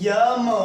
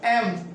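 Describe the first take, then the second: First: It begins with a 'y' sound before the vowel. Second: It begins directly with a plain vowel. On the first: The speaker calls it wrong. "यम पढ़ते हैं" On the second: The speaker calls it right. "No, it's a एम"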